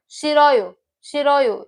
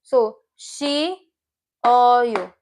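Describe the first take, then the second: First: "shiroyo" run together as one smooth word, stress on shi. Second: "shi-ro-yo" split into three beats, very slow; slow syllable by syllable. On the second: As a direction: break "shi-ro-yo" apart slowly for the class. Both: Shown as a demonstration. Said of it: "if you pronounce it together".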